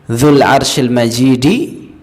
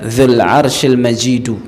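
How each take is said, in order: First: The last word ends with an 'i' vowel. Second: The last word ends with a 'u' vowel. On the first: The glory describes the throne. "bisa dibaca dzul arsyil majidi" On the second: The glory describes God. "majidu pakainya dhammah"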